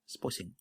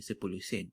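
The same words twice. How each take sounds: First: The syllables are slurred and shortened together. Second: Every syllable is pronounced clearly and fully. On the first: This is the casual everyday form. "so you would just say sepuluh sen" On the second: This is the longer careful form. "instead of saying sepuluh sen, which is a bit lengthy"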